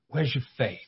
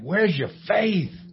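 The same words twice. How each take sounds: First: It is said in a gentle tone. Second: It is said in an angry tone.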